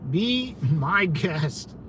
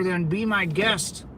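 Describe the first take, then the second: First: Drawn out, slow and dismissive. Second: Said in the usual way. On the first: Real, not acted. Streamer slowly brushing off the caller, drawn-out and dismissive. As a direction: stretch it out like you're done with them.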